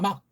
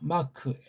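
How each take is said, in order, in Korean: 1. 마지막 k는 짧게 끊어서 터뜨리지 않아요. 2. 마지막 k는 숨을 내쉬면서 터뜨려요. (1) "이걸 막이라고 우리는 할 수 있잖아요" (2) "얘는 이걸 다 내는데"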